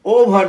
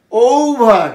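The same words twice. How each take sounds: First: ওভার with a short first o; wrong pronunciation. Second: ওভার with long ou and faint R; indistinct final R. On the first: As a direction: say ওভার quickly with an unstretched o. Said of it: "ওভার নয়". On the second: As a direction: let the R of ওভার fade after a long ou. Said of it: "অস্পষ্ট আর". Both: Shown as a demonstration.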